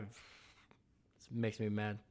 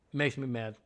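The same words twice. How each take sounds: First: Very slow, soft grumble under his breath; muttered to himself. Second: Said in the usual way. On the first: Real, not acted. To himself after his Bears rant, slow soft grumble. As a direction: let the anger sink into a slow low mutter.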